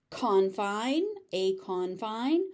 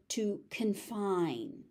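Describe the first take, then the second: First: "confine" as CON-fine, first syllable stressed; noun stress. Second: "confine" as con-FINE, slowly, falling; verb stress. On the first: Teacher contrasting noun with verb, first-syllable stress. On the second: Teacher contrasting verb with noun, second-syllable stress. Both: Shown as a demonstration. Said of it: "the stress pattern changes depending on".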